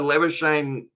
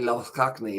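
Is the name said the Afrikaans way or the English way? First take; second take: English; Afrikaans. First: The name is said with anglicized sounds. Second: The name is said with Afrikaans sounds. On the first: This is how the player himself prefers it. "I believe he prefers it pronounced like that" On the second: This is the original South African pronunciation. "if you look at the pronunciation in South African, it's actually"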